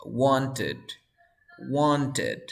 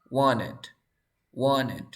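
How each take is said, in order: First: "wanted" with the T sounded before "ed"; T pronounced. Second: "Wanted" said as "wanned", no T after N; dropped T. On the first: Teacher applying the ED rule, "wanted" with full T. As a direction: keep a clear T inside "wanted". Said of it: "antes del E D hay una T". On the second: Teacher applying earlier pronunciation rules, "Wanted" without its T. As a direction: drop the T inside "Wanted". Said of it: "se elimina la T". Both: Shown as a demonstration.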